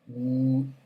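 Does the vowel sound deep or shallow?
deep. The vowel sounds deep, with a lowered throat. The speaker calls it right.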